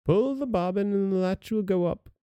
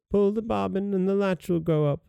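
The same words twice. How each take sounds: First: Grandmother crying out. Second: Wolf posing as grandmother, high and gentle; softened wolf voice. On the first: Ill grandmother calling from bed, mild high cry. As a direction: lift it high, a mild call to the door. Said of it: "cried out". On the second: Wolf luring the girl inside, softened high voice. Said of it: "softening his voice as much as he could". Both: Acted.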